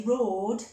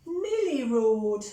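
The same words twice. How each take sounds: First: Roaring. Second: Louder little copycat roar. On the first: Teacher reading to children, hammed-up roar. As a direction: roar it like a playful lion cub. Monty roars in the story. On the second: Teacher reading Millie copying Monty, playful roar. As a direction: echo the roar, bigger still. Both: A narrator's reading.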